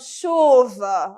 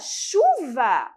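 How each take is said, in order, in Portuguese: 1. A palavra soa infeliz e descontente. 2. A palavra soa alegre e animada. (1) "Pode ser ali que eu não esteja também muito feliz com a chuva" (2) "nossa, chuva!"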